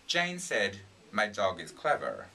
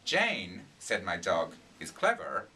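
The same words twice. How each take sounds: First: A single pause comes right after 'said'. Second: Pauses come after 'Jane' and after 'dog'. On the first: Jane is the one saying the dog is clever. "separating thought groups" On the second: The dog is the one saying Jane is clever. "the meaning's completely different... Your dog's talking"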